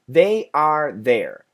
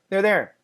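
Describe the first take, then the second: First: It is said slowly, each word distinct. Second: It is said fast, the words run together.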